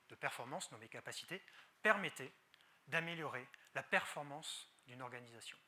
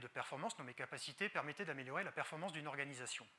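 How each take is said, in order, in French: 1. C'est débité avec des silences entre les phrases. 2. C'est débité rapidement, sans aucun silence. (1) "Et le bon exemple serait plutôt" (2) "je ne suis pas sûr qu'on tienne vingt minutes à ce rythme"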